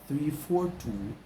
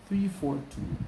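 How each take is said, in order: No difference in how they are said.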